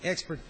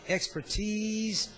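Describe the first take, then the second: First: The last syllable sounds like ice. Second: The last syllable ends with a z sound. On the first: "as though it might be an I C" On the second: "as though it's a Z"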